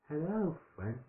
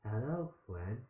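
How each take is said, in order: First: It is said in a put-on baby voice. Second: It is said in the reader's normal voice.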